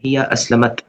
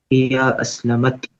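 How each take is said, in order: First: Said in the usual way. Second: हिया अस्लमत said slowly, ending stretched on अत; teacher drawing out हिया अस्लमत so the अत ending is heard; slow model reading. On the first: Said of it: "एक ए extra आया हुआ है इधर". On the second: Shown as a demonstration. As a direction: spell out हिया अस्लमत syllable by syllable, landing on अत. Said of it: "अत, अत sound".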